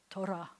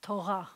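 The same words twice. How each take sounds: First: "Torah" with a lightly rolled r; "Torah" with a tongue-tip trill; gently trilled R. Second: "Torah" with a throaty r; "Torah" with a guttural Israeli r; Israeli back R. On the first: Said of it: "it would have to be gently trilled". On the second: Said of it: "they'll say it way back here like this". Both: Shown as a demonstration.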